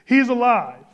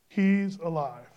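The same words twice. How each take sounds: First: It is said with strong energy and conviction. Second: It is said flatly, without much energy.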